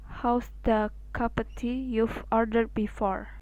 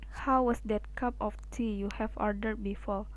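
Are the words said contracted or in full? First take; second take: contracted; full. First: Words are run together into quick contractions. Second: Each word is said fully, without contractions. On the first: "will sound like" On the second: "For example"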